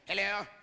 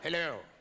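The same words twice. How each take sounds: First: It is said in a theatrical British accent. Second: It is said in an American accent.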